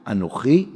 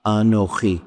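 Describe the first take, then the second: First: Anochi with a questioning rise; doubting. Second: Anochi said calm and settled, falling at the end; presence. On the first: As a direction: ask Anochi unsure, rising at the end. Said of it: "Moses' Anochi is the voice of imposter syndrome". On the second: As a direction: say Anochi as steady, certain presence. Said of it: "God's Anochi is the voice of eternal presence". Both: Shown as a demonstration.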